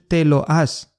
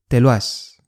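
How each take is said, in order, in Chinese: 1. 这些词是分开说的。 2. 这些词连在一起说。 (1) "不是te lo has" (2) "而是te lo has"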